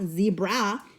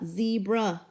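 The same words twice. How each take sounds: First: The final vowel is a full, clear a. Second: The final vowel is a weak schwa. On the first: The speaker calls it wrong. "instead of making a" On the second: The speaker calls it right. "it says a ... which is the schwa"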